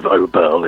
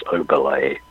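First: Oberle without the accented final E; mispronounced surname. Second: Oberle with the final E sounded as "ay"; correct surname pronunciation. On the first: Musician showing host the wrong way, Oberle with a silent final E. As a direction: say Oberle as "OH-berl", ending on the L. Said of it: "So instead of Oberle". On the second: Musician correcting the surname for host, Oberle ending in "lay". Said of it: "acute accent on the last E". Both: Shown as a demonstration.

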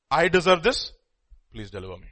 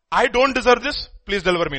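First: Humble confession. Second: Higher and louder, protesting; indignant complaint. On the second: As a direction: demand it as if wronged. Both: Shown as a demonstration. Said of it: "There's a lif-, difference".

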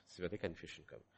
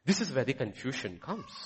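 First: Much softer, lower repeat, almost to himself; hushed echo. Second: Said in the usual way. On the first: Real, not acted. Preacher to congregation, hushed repeat. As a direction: let it drop to a murmur.

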